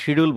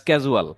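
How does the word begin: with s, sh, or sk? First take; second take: sh; sk. First: The word begins with an sh sound. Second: The word begins with an sk sound. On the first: This is how people here commonly say it. The speaker calls it wrong. "আমরা শিডিউল বলি" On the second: This is the proper pronunciation. The speaker calls it right. "বা স্ক্যাজুয়াল"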